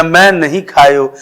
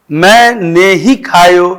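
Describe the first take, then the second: First: "नहीं" said as one word of denial; stress on मैं नहीं. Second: Slow, "मैंने ही" split into distinct words; stress on मैंने ही. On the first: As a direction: contrast "मैं नहीं" as a clear negative. ("मैं नहीं" को इनकार की तरह साफ़ बोलें) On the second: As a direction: set "ही" apart after "मैंने". ("मैंने ही" साफ़ अलग करके) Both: Shown as a demonstration. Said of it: "अगर लिखित रूप से होता तो स्पष्ट होता".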